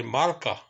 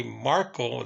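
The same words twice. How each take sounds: First: "Marka" with a final ah instead of oh; Russian pronunciation. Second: Said in the usual way. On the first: Shown as a demonstration. Storyteller showing how Russians say the name, "Marka" ending in ah. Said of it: "they say Marka". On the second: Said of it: "they don't say Marco".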